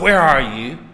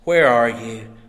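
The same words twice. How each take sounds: First: It sounds harsh and accusing. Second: It sounds soft and gentle.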